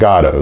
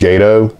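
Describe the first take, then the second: First: The first syllable sounds like 'gah'. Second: The first syllable sounds like 'gay'. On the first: "they pronounce it Gato"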